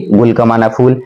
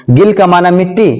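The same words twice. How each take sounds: First: گل said as gul, rounded u vowel; teacher says گل as gul, meaning flower; gul with pesh. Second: گل said as gil, short i vowel; teacher says گل as gil, meaning soil; gil with zer. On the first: Teacher drilling students: گل pronounced gul with pesh. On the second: Teacher drilling students: گل pronounced gil with zer. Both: Shown as a demonstration. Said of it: "زبر زیر پیش کا".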